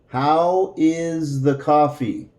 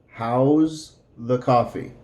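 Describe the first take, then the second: First: How and is are said as separate words. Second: How and is are joined into one word.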